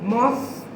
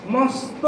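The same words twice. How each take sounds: The two takes are said the same way.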